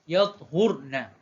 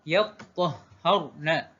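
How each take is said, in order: First: The consonants are single, with a closed first syllable. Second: The consonants are doubled, with open a-vowels. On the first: This is the reading of one group of reciters. "Matikan huruf ta dan juga huruf ha dibaca dengan baris hadapan" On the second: This is the reading of another group of reciters. "baris atas huruf ta dan juga huruf ha dan kedua-duanya huruf tersebut dibaca dengan tasydid"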